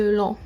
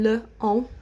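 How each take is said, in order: First: "long" said as a single linked syllable; rolled into one. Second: "le on" said as two separate words; wrong split form. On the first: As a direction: roll "long" into one word, no break. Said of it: "roll it into one". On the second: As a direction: pull "le" and "on" apart, no linking. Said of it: "which is quite difficult to say". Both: Shown as a demonstration.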